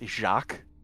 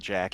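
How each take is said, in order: First: It is said like the French name Jacques. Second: It is said like the English name Jack. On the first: The speaker calls it right. "It's Jacques" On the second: The speaker calls it wrong. "his name is not Jack"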